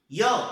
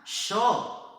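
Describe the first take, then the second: First: It is said with a Spain accent. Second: It is said with an Argentine accent.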